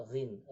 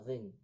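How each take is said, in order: No difference in how they are said.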